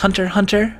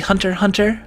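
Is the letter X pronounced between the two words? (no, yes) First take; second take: no; no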